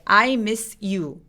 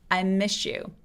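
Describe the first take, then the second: First: The words are said separately and choppily. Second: The words are smoothly linked together. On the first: The speaker calls it wrong. "뭔가 뚝딱거리죠" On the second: The speaker calls it right. "부드럽게 연결하면"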